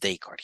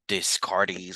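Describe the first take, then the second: First: The name is said with French-style sounds. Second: The name is read with English-style sounds. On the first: The speaker calls it right. "he was French, so the way we read this is Descartes" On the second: The speaker calls it wrong. "I know people want to read it differently"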